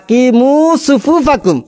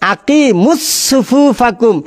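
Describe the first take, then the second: First: Aqimu is said with no added s sound. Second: An extra s sound joins aqimu to the next word. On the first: The speaker calls it right. "শুদ্ধ করে পড়ছে" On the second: The speaker calls it wrong. "পেছ লাগাই দিয়েছে"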